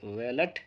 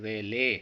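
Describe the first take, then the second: First: The final t sound is pronounced. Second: The word ends without a t sound. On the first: The speaker calls it wrong. "ये सारे ही pronunciation जड़ से ही गलत हैं" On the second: The speaker calls it right. "इसका सही pronunciation जो होता है वो होता है वेले"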